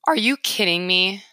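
It sounds like a reaction to bad news.

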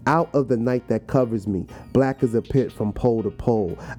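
It is read in a calm, relaxed way.

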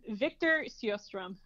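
The name is said with a Swedish pronunciation. "I'm going for a more traditional Swedish pronunciation with that one"

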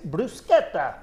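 The word is said in an Italian way. This is the authentic way to say it. The speaker calls it right. "but it's bruschetta. ... real authentic Italian"

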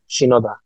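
The name is said with Japanese pronunciation. The speaker calls it right. "if it was in Japan, it would be Shinoda"

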